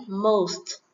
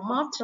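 First: "Most" with a long O glide; correct O sound. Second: "most" with an open aw vowel; mispronounced O vowel. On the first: Teacher modelling for students, "Most" with a long O. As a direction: say "Most" as mohst, falling. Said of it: "Các bạn phải đọc là âm O này". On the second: Teacher showing students' mistake, "most" with an open aw. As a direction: say "most" wrongly, as mawt. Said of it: "Nhiều bạn đọc most là sai nhé". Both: Shown as a demonstration.

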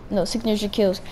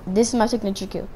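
First: Correcting, leaning on kills; correcting himself, stress on kills. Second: Said in the usual way. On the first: Shown as a demonstration. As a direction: hit the final s of kills to fix the word.

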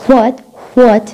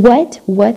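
First: "what" with h before the w, "hwat"; American HW. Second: "what" starting on a plain w, no h; British plain W. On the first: Teacher demonstrating American "what" as "hwat". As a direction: blow an h into the start of "what". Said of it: "there's a ها sound before". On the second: Teacher demonstrating British "what" with plain w. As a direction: say "what" as "wot", no puff before w. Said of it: "صوت و عادي". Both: Shown as a demonstration.

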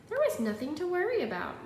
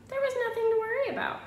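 First: A lightly higher, brighter mother reassuring; a mother's cheerful told-you-so. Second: Much higher, louder and fast; a father bursting with cheer; excited father. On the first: Mother tells Wimberly nothing to worry about, lightly higher voice. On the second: Father tells Wimberly all went well, high excited voice. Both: Acted.

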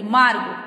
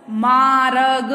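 First: "मार्ग" as maarg, r straight into g; correct joined pronunciation. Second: "मार्ग" drawn out as maa-ra-g; wrong split pronunciation. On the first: Teacher shows the correct word, "मार्ग" joined as maarg. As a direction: say "मार्ग" compact, no vowel between r and g. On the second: Teacher shows how not to say it, "मार्ग" stretched as maa-rag. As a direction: say "मार्ग" stretched, with a vowel after r. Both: Shown as a demonstration. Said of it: "ऐसे नहीं बोली जाती".

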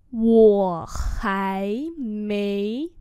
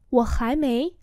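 First: Wo hai mei very drawn out; slow demonstration. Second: Said in the usual way. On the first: Shown as a demonstration. Teacher repeats "Wo hai mei" for learners, very slowly. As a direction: hold each syllable of Wo hai mei.

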